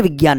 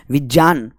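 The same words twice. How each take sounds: First: "विज्ञान" said as "vigyaan"; "विज्ञान" with g in the middle; common wrong pronunciation. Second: "विज्ञान" said as "vijyaan"; "विज्ञान" with j in the middle, falling; correct pronunciation. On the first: Retold or imitated. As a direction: say "विज्ञान" with a hard g plus y. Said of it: "हम बोलते हैं ना विज्ञान नहीं". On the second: Shown as a demonstration. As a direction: say "विज्ञान" with j in place of g. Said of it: "विज्ञान नहीं".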